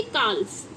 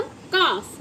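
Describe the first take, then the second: First: काल्फ said with the L sounded, as a mistake; wrong pronunciation. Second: काफ said with no L sound; silent L. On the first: Teacher showing children the wrong way, काल्फ. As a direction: sound the L in काल्फ to show the error. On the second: Teacher giving children the correct pronunciation काफ. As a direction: say काफ, not काल्फ, dropping the L. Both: Shown as a demonstration. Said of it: "ना कि काल्फ".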